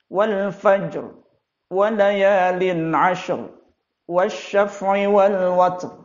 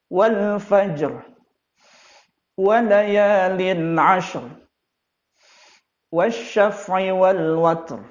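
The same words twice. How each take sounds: First: It runs on without any breath between verses. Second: A breath is taken between the verses. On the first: The speaker calls it wrong. "tanpa sedikit pun dia mengganti nafasnya" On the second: The speaker calls it right. "yang ia lakukan adalah bertanafus atau mengganti nafas"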